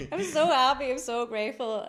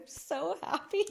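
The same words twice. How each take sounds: First: Much louder, high, gushing joy; overjoyed tears. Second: High, slow, tearful joy; overjoyed tears. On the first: Telling friends why she is crying, loud gushing joy. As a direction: burst it out, overwhelmed with gratitude. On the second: Retelling crying in the garden, high tearful joy. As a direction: squeak out happiness through tears. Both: Retold or imitated. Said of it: "I started crying".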